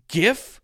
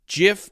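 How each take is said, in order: First: The word begins with a soft J sound. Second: The same.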